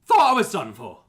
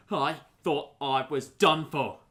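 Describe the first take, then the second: First: Loud, high-strung cry of a shaken victim; acted, emphatic exclamation of shock; louder shaken outburst. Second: Shaken victim. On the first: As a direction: blurt it out loudly after a narrow escape. Rescued victim repeats it louder. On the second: Acted. Rescued victim, first take.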